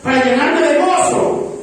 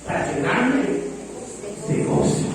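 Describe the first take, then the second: First: "Para llenarme de gozo" higher and slower, rising on "gozo"; emphatic reading of Paul. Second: "para llenarme de gozo" said softly, fading to breath on "gozo"; soft reading of Paul. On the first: Pastor stresses Paul's joy to Timothy, slow and lifted. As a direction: lift and stretch "gozo" with a rising tune. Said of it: "y Pablo le dice". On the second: Pastor reads Paul's letter to Timothy, softly. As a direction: let "gozo" die away almost unvoiced. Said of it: "Acordándome de tus lágrimas". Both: Retold or imitated.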